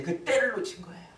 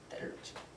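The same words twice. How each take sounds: First: Said in the usual way. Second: Hushed, voiceless echo; whisper. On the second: Real, not acted. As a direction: let the regret drop to a whisper. (나직이 속삭이며 되뇌기)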